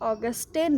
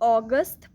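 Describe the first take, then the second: First: The name ends with an added e vowel. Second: The name ends on the t sound. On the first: The speaker calls it wrong. "ऑगस्टे नहीं पढ़ते हैं" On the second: The speaker calls it right. "ऑगस्ट पढ़ते हैं"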